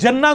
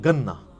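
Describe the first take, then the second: First: The word begins with a J sound. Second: The word begins with a hard G sound. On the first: This is the word as it is written. "लफ्ज है जीम" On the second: This is how Egyptian speakers say it. "वो जन्ना को गन्ना पढ़ते हैं"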